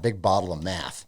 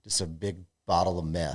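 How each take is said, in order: First: "math" said with the open a of "cat", not "meth"; "math" with a wide a sound. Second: "meth" said with the vowel of "bet", not "math"; "meth" with a short e, like the drug. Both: Shown as a demonstration. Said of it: "We're not meth. Math".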